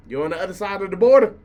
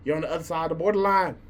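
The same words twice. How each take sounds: First: "border" pushed out louder and fast; louder emphatic repeat. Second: Said in the usual way. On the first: Real, not acted. Roasting the other clique, louder emphatic jab. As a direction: hammer the point home, louder.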